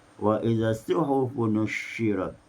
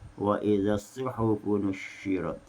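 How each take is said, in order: The two takes are said the same way.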